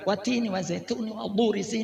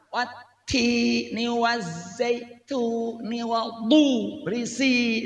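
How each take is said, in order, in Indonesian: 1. Dibaca dengan cepat dan tergesa-gesa. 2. Dibaca dengan lambat dan jelas. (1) "Ini namanya hadad" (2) "Ini ini tartel oh jelas"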